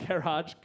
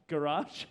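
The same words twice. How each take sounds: First: Garage with an open first vowel, "GA-rahj"; first pronunciation. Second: Garage with a weak first vowel, "guh-RAHJ"; alternative pronunciation. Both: Shown as a demonstration. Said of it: "is it Tapak or Tapak".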